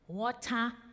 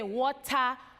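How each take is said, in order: First: It is said with a pinched, nasal voice. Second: It is said in a plain, unpinched voice. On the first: It sounds American. "if you hold your nose, water, gal, mm, sounds very American" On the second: It sounds like the speaker's home accent. "when we're growing up, we say water, gal, but when that doesn't sound American"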